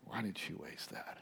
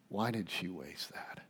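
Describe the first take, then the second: First: Unvoiced, secretive grumble to a neighbour; hushed plotting whisper; murmured whisper. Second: Low voiced grumble, still quiet; quiet disapproving murmur; soft murmur. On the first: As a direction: whisper it like a scheming aside. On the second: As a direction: mutter it under the breath with voice. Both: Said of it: "they murmur to one another".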